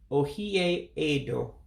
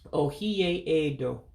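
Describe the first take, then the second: First: The 'e' before 'do' is kept and pronounced. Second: The 'e' before 'do' is kept and pronounced.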